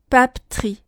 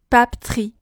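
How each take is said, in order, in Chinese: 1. 第二个元音非常弱，或者被省略。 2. 第二个元音非常弱，或者被省略。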